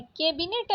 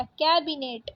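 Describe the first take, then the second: First: कैबिनेट said "ke-binet", closed e; wrong vowel. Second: Said in the usual way. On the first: Shown as a demonstration. Teacher rejecting a spelling, कैबिनेट with plain e. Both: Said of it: "कैबिनेट नहीं होता".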